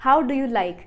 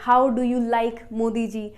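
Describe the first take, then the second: First: Said in the usual way. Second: Slow teaching. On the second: Shown as a demonstration.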